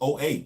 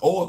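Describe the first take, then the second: First: The name is spelled out as two letters. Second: The name is said as one short word. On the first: The speaker calls it wrong. "which I used to famously pronounce as O A" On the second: The speaker calls it right. "No, it's O"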